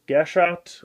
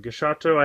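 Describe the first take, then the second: First: The word ends on a final t sound. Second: The word ends with an added final o vowel. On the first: "a lot of people are just saying uh, Gashat" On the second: "it's written as Gashato"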